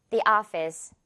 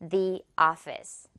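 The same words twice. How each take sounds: First: It is said quickly and smoothly linked. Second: It is said slowly and distinctly.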